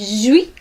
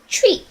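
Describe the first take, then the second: First: The word starts with a soft j sound. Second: The word starts with a strong ch sound. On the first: The speaker calls it wrong. "you would probably say jui" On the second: The speaker calls it right. "the way to pronounce it is chui"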